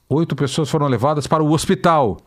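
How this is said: The emphasis falls strongly on the word hospital. The destination, not the number of people, is the news. The speaker calls it wrong.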